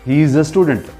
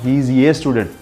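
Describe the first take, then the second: First: The article is a short, weak uh sound. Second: The article sounds like the letter name A. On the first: The speaker calls it right. "as an article, we have to pronounce it a" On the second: The speaker calls it wrong.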